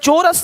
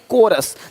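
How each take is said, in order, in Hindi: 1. शब्द की शुरुआत ch की आवाज़ से होती है। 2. शब्द की शुरुआत k की आवाज़ से होती है। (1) "चोरस नहीं"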